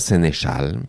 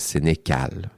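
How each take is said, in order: First: The last syllable begins with a 'sh' sound. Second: The last syllable begins with a 'k' sound. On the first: The speaker calls it right. "On dit Chal" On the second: The speaker calls it wrong. "pas Sénécal"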